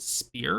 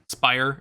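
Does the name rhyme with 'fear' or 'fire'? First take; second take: fear; fire. First: The vowel sounds like the one in 'fear'. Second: The vowel sounds like the one in 'fire'. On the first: The speaker calls it right. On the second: The speaker calls it wrong.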